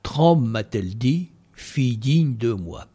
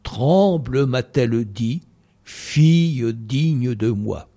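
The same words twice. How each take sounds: First: The final mute e's are dropped, giving fewer syllables. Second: The final mute e's are pronounced, giving twelve syllables. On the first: The speaker calls it wrong. "Si je le dis comme ça, on a 8 syllabes" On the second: The speaker calls it right. "Le « e » prononce"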